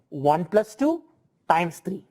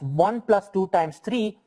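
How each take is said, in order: First: One plus two is grouped together. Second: Two times three is grouped together.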